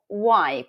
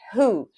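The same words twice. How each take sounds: First: Why said clearly as one glide, "wai"; pronunciation demo. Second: Who said as a long "hu", rounded lips; pronunciation demo. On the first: Teacher to class, modelling the word why, clearly pronounced. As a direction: model the sound of why for students. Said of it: "Quando eu tenho final Y". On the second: Teacher to class, modelling the word who, clearly pronounced. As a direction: model the sound of who for students. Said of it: "Quando eu tenho final O, fica who". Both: Shown as a demonstration.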